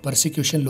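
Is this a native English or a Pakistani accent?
Pakistani. It is said with a local Pakistani accent. "Local मैंने persecution लिख दिया है"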